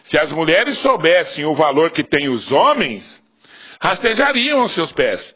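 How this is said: The pause comes after the word 'homens'. The men are the ones who have value. "vou colocar a vírgula aqui"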